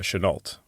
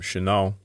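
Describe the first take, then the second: First: The name is said the American way. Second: The name is said the French way.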